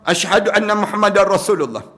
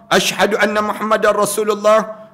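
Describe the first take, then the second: No difference in how they are said.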